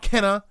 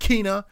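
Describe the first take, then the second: First: The first vowel is a short 'e'. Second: The first vowel is a long 'ee'. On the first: The speaker calls it wrong. "It's not Kena" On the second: The speaker calls it right. "It sounds like it's got two E's in it"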